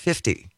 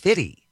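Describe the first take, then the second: First: The second f sound is clearly pronounced. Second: The second f sound is dropped. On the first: The speaker calls it right. "I pronounced it 50" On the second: The speaker calls it wrong. "corrected me and said, no, it's [name]"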